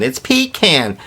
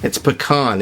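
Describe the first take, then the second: First: Pecan with a long 'ee' and 'can' as in tin can; pecan as PEE-can. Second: Pecan with an 'ah' in the stressed last syllable; pecan as puh-KAHN. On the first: Nut fans argue over how it's pronounced, pecan as PEE-can. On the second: Nut fans argue over how it's pronounced, pecan as puh-KAHN. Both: Shown as a demonstration. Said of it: "agree on how it's pronounced".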